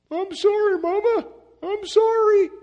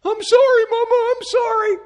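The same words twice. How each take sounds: First: Put-on much higher, loud pleading child voice; sorry little boy. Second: Put-on much higher, louder pleading child voice; sorry little boy. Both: Muddy little boy pleading with his mama, high whiny apology. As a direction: beg like a small boy caught out. Boy begs mother after mud.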